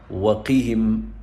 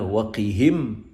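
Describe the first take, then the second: First: The stress is on the second syllable. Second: The stress is on the first syllable. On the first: The speaker calls it right. "emphasizing the qaf" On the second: The speaker calls it wrong. "So not"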